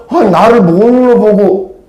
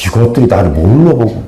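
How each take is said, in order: First: 아 drawn out high, slow, offended; indignant Naaman. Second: Said in the usual way. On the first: Retold or imitated. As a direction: huff it out slowly and high as the proud general. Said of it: "뭐라고 그래요?". (높고 느리게, 모욕당한 장군처럼)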